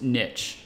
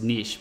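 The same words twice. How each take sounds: First: It is said the common English way. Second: It is said the French way. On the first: Most people say it this way. "the default now is niche, is how the majority of people say it" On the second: People may think it sounds pretentious. "this is a French ass looking word to me... that's how I would say it at first"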